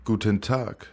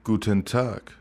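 The two takes are said the same way.

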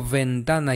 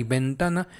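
First: Ventana with lip on teeth, as v; labiodental V. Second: Ventana with both lips, as bentana; bilabial B. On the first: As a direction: model ventana with a buzzing v. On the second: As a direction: model ventana with a b sound. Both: Shown as a demonstration. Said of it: "si yo te digo ventana y ventana".

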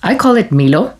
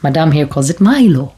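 First: Milo said as MEE-lo with a long ee; Milo pronounced. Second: Milo said as MY-lo with a long i; Milo pronounced. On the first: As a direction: say Milo as MEE-lo, East African way. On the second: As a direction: say Milo as MY-lo, the Western way. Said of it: "Because it's spelled M I L O". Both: Shown as a demonstration.

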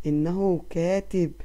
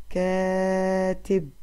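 First: Said in the usual way. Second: كاتب with the long aa held very slowly; teacher drawing out the long vowel; stretched syllables. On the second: Shown as a demonstration. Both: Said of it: "مع أي مد سمعنا صوتها".

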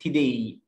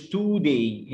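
First: Today as "tih-DAY", schwa in the first syllable; reduced first vowel. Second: Today as "TOO-day", drawn-out oo; wrong long oo. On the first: Teacher shows how it is said, schwa. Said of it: "بتقول today مش today". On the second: Teacher shows what not to say, long oo. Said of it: "مش today". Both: Shown as a demonstration.

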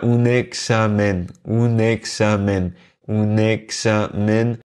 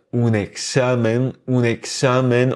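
First: "examen" slowly, all syllables equal; sans accentuation. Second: "examen" stressed on the middle syllable, e-XA-men; accent sur l'avant-dernière. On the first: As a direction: draw out each syllable of "examen" evenly, none stressed. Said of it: "prononcer chaque mot sans accentuer aucune syllabe". (« examen » lentement, syllabes égales, sans accent tonique) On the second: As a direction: punch XA in "examen". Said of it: "on accentue justement l'avant-dernière syllabe". (« examen » accentué sur l'avant-dernière syllabe, e-XA-men) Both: Shown as a demonstration.

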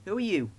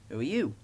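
First: High-pitched bus asking back; perky, higher-voiced counter-question; Bertie. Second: Understated question, in the narrator's own register; mildly curious engine; Thomas. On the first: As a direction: toss the question back in a lifted voice. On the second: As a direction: ask plainly, falling at the end. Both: A narrator's reading.

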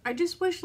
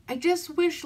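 First: Holding back tears on the wish; teary. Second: Higher, choked-up wish; teary. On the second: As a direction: voice breaking on the wish. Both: Real, not acted. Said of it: "sit here and cry on camera".

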